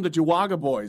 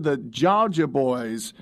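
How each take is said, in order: First: The name sounds like Ja-wa-ga, three syllables. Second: The name sounds like the word Georgia. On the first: The speaker calls it wrong. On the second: The speaker calls it right.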